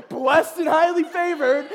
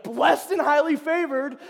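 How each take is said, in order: First: Loud, high, slow stock answer; hammed-up cheerful catchphrase; imitating David. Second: Loud, high, slowed catchphrase; cheerful set phrase, hammed up; imitating David. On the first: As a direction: say the motto as if it never changes. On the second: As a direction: deliver it like a proud motto. David's stock reply, imitated.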